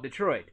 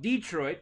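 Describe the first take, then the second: First: It is said the way Michigan speakers say it. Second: It is said the way Indiana speakers say it. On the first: "in Michigan, they call it Detroit" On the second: "in Indiana, we call it Detroit"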